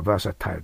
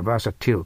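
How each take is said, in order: First: バーサタイル with a long "tile" ending; "-tile" pronunciation. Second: バーサティル with a short "til" ending; "-til" pronunciation. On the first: Teacher contrasting two readings of the spelling, "-tile" ending. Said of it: "二つあるということです". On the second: Teacher contrasting two readings of the spelling, "-til" ending. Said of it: "ティルと書いてあるから". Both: Shown as a demonstration.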